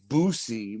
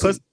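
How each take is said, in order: First: The first vowel sounds like in 'boo'. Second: The first vowel sounds like in 'bus'. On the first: The speaker calls it wrong. "a lot of people then try to say Boosie" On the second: The speaker calls it right. "It's Bussy, right?"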